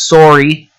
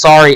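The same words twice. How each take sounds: First: It is said in a Canadian accent. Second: It is said in a plain American accent.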